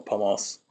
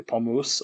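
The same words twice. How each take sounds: First: "pomos" with an open o before the final s; vowel variant o. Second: "pomus" ending in a rounded -oos; vowel variant u. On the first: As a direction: say "pomos", ending in -oss. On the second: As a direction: say "pomus" with u as in put. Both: Shown as a demonstration. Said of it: "pomus or pomos".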